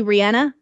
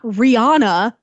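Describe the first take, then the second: First: Rihanna with a short "a", "ree-ANN-uh"; the singer's own pronunciation. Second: Rihanna with an open "ah", "ree-AH-na"; common mispronunciation. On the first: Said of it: "it's actually [name]". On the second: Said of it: "she's not [name]". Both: Shown as a demonstration.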